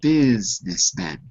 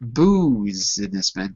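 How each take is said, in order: First: The first vowel sounds like 'i'. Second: The first vowel sounds like 'u'. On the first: The speaker calls it right. "We say it like an I" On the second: The speaker calls it wrong. "we don't say the U"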